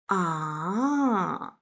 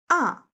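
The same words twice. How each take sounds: First: The pitch falls and then rises. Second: The pitch falls sharply from high to low. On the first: The speaker is thinking something over. "falling down and then rising up, ... thinking sound" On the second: The speaker is angry. "falling down sharply, ... angry sound"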